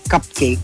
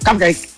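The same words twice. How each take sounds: First: The word is said in a calm, ordinary tone. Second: The word is said in a harsh, scolding tone. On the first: It is just a word with no command. "You can actually be saying cupcake" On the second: It means no. "Ibig sabihin nun, parang no"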